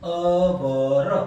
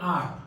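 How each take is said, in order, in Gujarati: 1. આ શબ્દ h વગર ower જેવો સંભળાય છે. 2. આ શબ્દ એક જ ar સ્વર જેવો સંભળાય છે. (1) "અવર પણ નથી" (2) "ઇટ્સ કોલ્ડ પ્રોપરલી આર"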